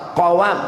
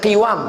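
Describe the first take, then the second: First: The first vowel is 'a'. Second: The first vowel is 'i'. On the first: The speaker calls it right. "tapi baca fathah qawam" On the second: The speaker calls it wrong. "jangan baca qiwam"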